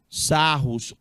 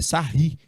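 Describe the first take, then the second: First: The name ends with an audible s sound. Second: The name ends without an s sound.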